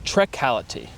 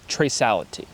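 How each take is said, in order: First: The middle consonant is a hard K sound. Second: The middle consonant is a soft S sound. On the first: The speaker calls it wrong. "it looks like that would be a trecality" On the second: The speaker calls it right. "it preserves that soft kind of S sound for the C and not a K sound"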